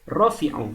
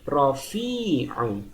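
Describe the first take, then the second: First: The middle vowel is cut short. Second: The middle vowel is held long. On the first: The speaker calls it wrong. "Tidak boleh hanya dibaca menjadi rofi'u" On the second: The speaker calls it right. "Tapi dia harus dibaca panjang"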